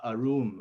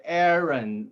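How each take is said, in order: First: Arun as a-ROON, long second syllable; contrasting name pronunciation. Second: Aaron with a stretched AIR first syllable; careful name pronunciation. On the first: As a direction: say Arun slowly, ending in a long OON. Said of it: "Did I say Aaron". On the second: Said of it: "not Arun". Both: Shown as a demonstration.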